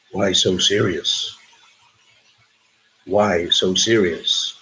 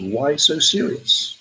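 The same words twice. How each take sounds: First: Low, slow, drawn-out movie villain; deep, deliberate menacing quote; film villain quote. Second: Said in the usual way. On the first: Acted. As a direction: drop low and stretch each word. Acted film villain quote for quiz.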